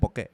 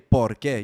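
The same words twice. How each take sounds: First: The words are pronounced clipped, with sounds dropped. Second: The words are pronounced fully, with every sound. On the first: "you be cutting off like words" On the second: "you don't say"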